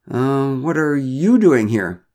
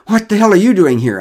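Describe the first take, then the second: First: Slow question with a high, drawn-out "you"; stress on YOU. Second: Loud, high breathless demand; gasp, then burst out in shock; startled, out of breath. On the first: Neighbour returns Derek's question, "you" stretched and raised. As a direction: turn it back, leaning long on "you". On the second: Derek startled by neighbours on the path, winded and loud. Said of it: "a bit out of breath". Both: A narrator's reading.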